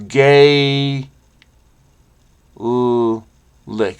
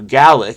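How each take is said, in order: First: The first vowel sounds like the one in 'face'. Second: The first vowel sounds like the one in 'bad'. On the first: "A as in face" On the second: "a as in bad"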